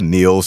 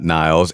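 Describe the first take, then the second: First: The name has an 'ee' vowel, like 'neels'. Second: The name has an 'eye' vowel, like 'niles'. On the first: The speaker calls it right. "Niels, not Niles" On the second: The speaker calls it wrong. "I mispronounced [name]'s first name"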